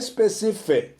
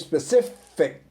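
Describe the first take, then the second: First: The word ends with an added vowel sound. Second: The word ends cleanly on the consonant sound. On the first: The speaker calls it wrong. "Não é specific" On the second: The speaker calls it right. "terminar essa palavra com o som consonantal, falando aquele C"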